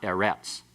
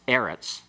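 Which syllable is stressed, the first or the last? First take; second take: last; first. First: The stress is on the last syllable. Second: The stress is on the first syllable. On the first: The speaker calls it wrong. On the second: The speaker calls it right. "always accented on the next to the last syllable"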